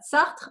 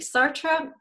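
First: The name is said with a French pronunciation. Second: The name is said with an English pronunciation. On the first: The speaker calls it right. "are we okay with my French pronunciation?" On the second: The speaker calls it wrong. "I can't say it like that"

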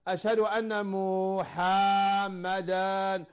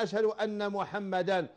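First: The name has a lengthened vowel like a w. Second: The name is said without any vowel lengthening. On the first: The speaker calls it wrong. "مو بالواو، لا خطأ" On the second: The speaker calls it right. "محمدا بلا مد"

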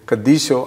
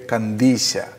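First: The word ends with a rounded 'o' vowel. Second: The word ends with an open 'a' vowel. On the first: This is the West Syriac way of saying it. "Whereas in the West Syriac" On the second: This is the East Syriac way of saying it. "in the song that I sang, you would hear"

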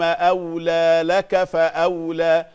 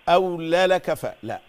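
First: Each letter is given its full length. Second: The letters are rushed and clipped short. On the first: The speaker calls it right. "تدي الحرف حقه، كل حرف له وقت له زمن" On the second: The speaker calls it wrong. "ما تخطفيش"

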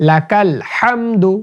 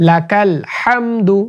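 The two takes are said the same way.

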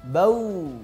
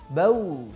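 No difference in how they are said.

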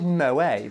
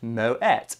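First: The name is said the French way. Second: The name is said the Dutch way. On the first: The brand is assumed to come from France. The speaker calls it wrong. "commonly mispronounced as Moët, because people believe it comes from France" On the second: The brand's founder was Dutch, not French. The speaker calls it right. "Moët is pronounced Moët"

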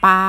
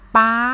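First: The pitch stays level in the middle. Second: The pitch stays high throughout.

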